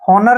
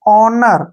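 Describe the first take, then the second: First: The word begins with an audible h sound. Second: The word begins with a vowel, no h. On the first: The speaker calls it wrong. "ऑनर नहीं पढ़ना है" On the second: The speaker calls it right. "एच को हमने यहाँ पे silent रखना है"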